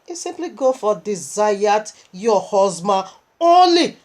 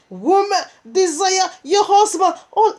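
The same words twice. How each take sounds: First: Said in the usual way. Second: High, loud command to the women; proclaiming. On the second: Shown as a demonstration. Preacher commanding wives in the congregation, loud high proclamation. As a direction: call it out as a decree.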